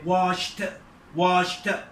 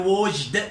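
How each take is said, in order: First: The ending is pronounced as a t sound. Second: The ending is pronounced as a d sound. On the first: The speaker calls it right. "هي washed" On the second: The speaker calls it wrong. "مليش واحد يقول لي washed بالدي"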